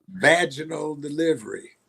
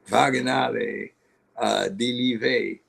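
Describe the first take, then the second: First: It is said as ordinary English words. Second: It is said like an exotic first name. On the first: This is what the spelling really says. "Know what it's spelled?" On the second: This is how the mother pronounced her daughter's name. "That's how you pronounce it?"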